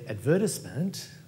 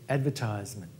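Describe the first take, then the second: First: It is said with a British or Australian pronunciation. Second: It is said with an American pronunciation. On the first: "that's an Australian or a British pronunciation" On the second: "they'd say advertisement"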